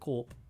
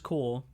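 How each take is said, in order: First: The word ends with a P sound. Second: The word ends without a P sound. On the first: The speaker calls it wrong. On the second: The speaker calls it right.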